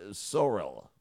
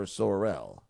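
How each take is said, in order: First: "Sorrell" as SORE-ul; "Sorrell" with a weak, swallowed second syllable; first pronunciation option. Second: "Sorrell" as sore-RELL; "Sorrell" with a full RELL ending; alternative pronunciation. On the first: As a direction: stress the front of "Sorrell". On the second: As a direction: bring out the end of "Sorrell". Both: Shown as a demonstration. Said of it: "or Sorrell".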